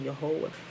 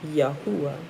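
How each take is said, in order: First: The middle vowel is an 'oh' sound. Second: The middle vowel is an 'oo' sound. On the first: The speaker calls it wrong. "that's using like one O sound. It's not really Yehovah" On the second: The speaker calls it right. "It's Yahuwah, right?"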